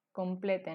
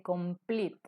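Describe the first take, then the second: First: "complete" leído a la española, com-ple-te; como se escribe. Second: "complete" dicho com-plit, sin e final; pronunciación inglesa. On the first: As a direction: haz sonar la e final de "complete". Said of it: "la escritura correcta es". ("complete" tal como se escribe, en tres sílabas) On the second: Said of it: "Pero se dice". ("complete" en dos sílabas, terminado en -plit) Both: Shown as a demonstration.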